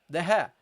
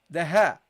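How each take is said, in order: Both takes have the same delivery.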